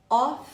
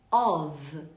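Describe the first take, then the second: First: "Off" said louder, ending on a clear F sound. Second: "Of" said low, ending on a V sound. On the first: Teacher contrasting "Off" with "of" for students. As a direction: hit the F at the end of "Off". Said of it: "com dois Fs, eu pronuncio como F". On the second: Teacher contrasting "Of" with "off" for students. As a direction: end "Of" with a buzzing V. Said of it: "com um F só, eu pronuncio como V". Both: Shown as a demonstration.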